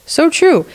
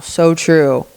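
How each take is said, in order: First: Pitched way up, emphatic agreement; delighted high so true. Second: Said in the usual way. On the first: Acted. Repeats with emphasis.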